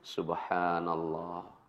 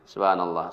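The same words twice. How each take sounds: First: It is said slowly and calmly. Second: It is said at a moderate pace.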